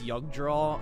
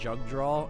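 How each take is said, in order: First: The name begins with a 'y' sound. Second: The name begins with a 'j' sound. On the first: The speaker calls it right. "it's a German J for pronunciation. Like you telling me it's Yugdraw" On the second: The speaker calls it wrong. "and not Jugdraw"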